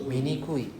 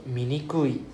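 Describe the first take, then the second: No difference in how they are said.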